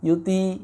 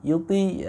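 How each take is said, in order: First: The t sound is light and thin. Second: The t sound is light and thin.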